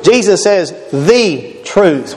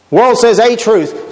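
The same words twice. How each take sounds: First: Slow, lean on the in the truth; stress on THE. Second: Slow, leaning on the little word a truth; stress on A. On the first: Preacher answering the world with Jesus, slow stress on the. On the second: Preacher contrasting the world's claim with Jesus, slow stress on a. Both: Shown as a demonstration.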